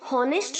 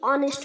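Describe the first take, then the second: First: The word begins with an audible H sound. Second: The word begins directly with a vowel sound. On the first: The speaker calls it wrong. "तो हम इसे हॉनेस्ट नहीं बोलेंगे" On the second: The speaker calls it right. "ऑनेस्ट बोलेंगे"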